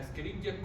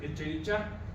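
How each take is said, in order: First: The 'ch' is pronounced as a k sound. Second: The 'ch' is pronounced as a ch sound. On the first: The speaker calls it right. "porque es la C H se pronuncia K" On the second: The speaker calls it wrong. "quiere decir que su docente no sabe latín"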